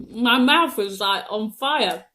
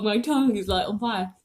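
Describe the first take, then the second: First: Burning mouth, strained words; mouth burning from spicy food. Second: Talking through a burning mouth; words pushed past a tongue on fire; mouth burning from spicy food. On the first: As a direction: speak as if your mouth is on fire. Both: Real, not acted.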